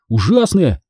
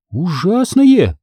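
First: "ужасное" said quicker, with falling finality; confirming statement. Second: "Ужасное" stretched slowly as a question; questioning echo. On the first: Boy confirming "ужасное" to Hanna, firm statement. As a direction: confirm "ужасное" firmly, without drawing it out. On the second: Hanna questioning her friend's word "Ужасное", questioning echo. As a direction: draw out "Ужасное" in wondering doubt. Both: A narrator's reading.

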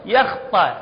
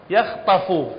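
First: يخطأ ending in a glottal stop, yakhta'; wrong pronunciation. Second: يخطف ending clearly in f plus u, yakhtafu; correct pronunciation. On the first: Teacher shows students the wrong يخطأ ending, lightly stressed. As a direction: say يخطأ with a hamza at the end. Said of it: "مثل من نقول يخطأ". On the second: Teacher shows students the right يخطف ending. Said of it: "هاي يخطف". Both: Shown as a demonstration.

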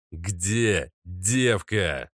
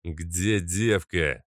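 First: Very slow menacing growl, stretched out; slow repeated growl. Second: Growled demand. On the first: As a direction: drag every word out as a threat. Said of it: "повторил незнакомец". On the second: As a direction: growl it like a masked thug. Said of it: "прорычал один из незнакомцев". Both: Acted.

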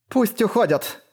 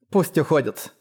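First: High, ringing order; ringing, agitated cry. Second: Said in the usual way. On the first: A narrator's reading. Isana stops the pursuit, a ringing anxious cry. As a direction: call out with nerves raising the pitch. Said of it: "таким звонким от волнения голосом". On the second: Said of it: "ещё раз повторила она".

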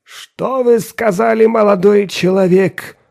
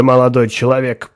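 First: Slow, high, disbelieving question; bewildered. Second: Said in the usual way. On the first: Acted. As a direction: ask it as if you misheard. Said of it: "Растерянно моргая".

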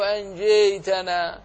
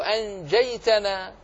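First: أنجيتنا with the fatha leaning toward e; wrong anjetana. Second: أنجيتنا with an open fatha before the ya; correct anjaytana. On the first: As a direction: say أنجيتنا with an imala-like e, as a mistake. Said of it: "ولا تقول". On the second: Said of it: "تقول". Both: Shown as a demonstration.

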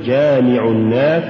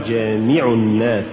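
First: Said in the usual way. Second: جامع الناس with too much stress on the mim; جامع الناس, accent shifted onto مِ; overstressed mim. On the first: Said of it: "قل". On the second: Shown as a demonstration. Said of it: "هو زيادة نبرة الميم".

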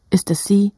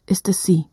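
The two takes are said the same way.

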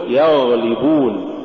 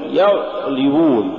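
First: يغلبون with the gh running; continuous gh before the l in يغلبون; soft flowing ghayn. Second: يغلبون with the gh cut dead; blocked ghayn and a gap in يغلبون; choked-off ghayn. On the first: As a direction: let the ghayn flow in يغلبون. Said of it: "قل". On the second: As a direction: stop short on the gh of يغلبون. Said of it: "ولا تقل". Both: Shown as a demonstration.

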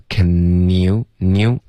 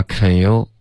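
First: CAN YOU run together as "kə-nyou", tongue on the palate; linked can you. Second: CAN YOU with the n lost, like "keh-you"; wrong can you. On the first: Teacher correcting a student, can you linked through the n. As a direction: link the n of can straight into you. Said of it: "Can you要连读". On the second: Teacher showing the mistake, can you with n dropped. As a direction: say can you without the tongue touching for n. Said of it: "不要发can you". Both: Shown as a demonstration.

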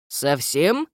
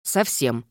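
First: Squinting, doubtful rising question; suspicious gnome question. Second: Low, flat, firm answer; firm denial. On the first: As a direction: probe with suspicion. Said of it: "поинтересовался препод и прищурился". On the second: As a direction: shut the question down. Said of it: "держалась непреклонно". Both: Acted.

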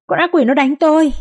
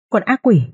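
First: Panicked scream. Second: High, fearful naming of the demon; frightened wail. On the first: Mistress shrieks that the demon beats her, panicked. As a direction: shriek con ác quỷ in panic. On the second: Mistress wails about her sister in fear. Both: A narrator's reading. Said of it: "kêu khóc rất thảm thương".

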